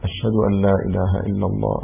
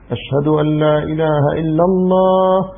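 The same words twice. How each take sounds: First: It is said in a low, quiet voice. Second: It is said in a raised, loud voice. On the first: "أتى بهما سرا هكذا" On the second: "ثم صوت مرتفع"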